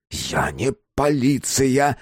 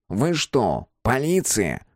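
First: Slow, separated words leading into "полиция"; "полиция" drawn out and set apart after a break; distinct emphasis. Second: Said in the usual way. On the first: A narrator's reading. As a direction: spell out "не полиция" slowly and distinctly. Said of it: "отчётливо выделивший".

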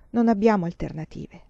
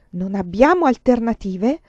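First: Said in the usual way. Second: Louder pleading echo of her words. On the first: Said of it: "she resigns herself". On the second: Acted. Lover pleads against her resignation, louder. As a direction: throw her words back at her, begging.

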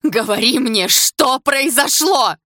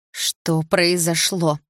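First: High, loud, drawn-out demand; full-lung scream. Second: Very slow, drawn-out question; firmer repeat. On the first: Polina demanding answers from silent Sasha, full-lung scream. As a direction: scream it out, stretching the last words. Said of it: "закричала во всю мощь лёгких". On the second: Polina pressing silent Sasha, slow firmer repeat. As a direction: stretch each word, insisting but not yet shouting. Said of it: "повторила я громче". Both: A narrator's reading.

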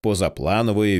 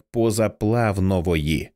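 First: Said in the usual way. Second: "позаплавнової" drawn out, with an extra v before n; mispronounced word. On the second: A narrator's reading. Narrator showing how he said it, "позаплавнової" with inserted v. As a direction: say "позаплавнової" slowly, adding a v sound. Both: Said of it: "він промовив як позаплавнової".

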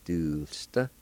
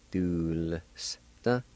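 First: Said in the usual way. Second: DULSTA split into "dool, s, ta"; syllable by syllable. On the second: Shown as a demonstration. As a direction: pause between the sounds of "Dulsta" for learners. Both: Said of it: "pronounce the L sound ... like this".

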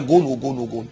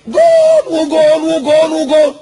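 First: Said in the usual way. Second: Long, high commentator's goal shout; screamed goal call. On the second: Acted. Mimicking a commentator celebrating a goal, screaming slowly and high. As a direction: yell it drawn out, high and loud. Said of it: "ويزعق ويصرخ".

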